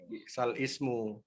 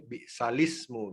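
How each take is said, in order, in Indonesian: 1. Hentian glotis memisahkan l dari ismu. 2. L langsung menyambung ke vokal berikutnya. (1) "Kalau ada sukun di lam dia jadi bi'sal ismu" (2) "memindahkan harokat hamzah pada huruf sebelumnya"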